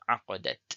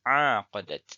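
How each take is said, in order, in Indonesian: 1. Vokal pertama pendek. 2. Vokal pertama panjang. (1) "Bacaan tanpa alif" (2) "Bacaan dengan alif"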